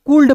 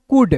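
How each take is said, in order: First: कुल्ड with the L sounded; the common mistake: कुल्ड; wrong pronunciation shown. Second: कुड with a silent L; right way: कुड, L dropped; correct pronunciation. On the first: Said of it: "कुड नहीं कूल्ड". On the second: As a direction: say कुड, no L sound. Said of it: "कूल्ड नहीं". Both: Shown as a demonstration.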